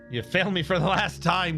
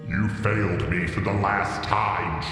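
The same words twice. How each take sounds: First: It is said in a normal voice. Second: It is said in a put-on evil villain voice.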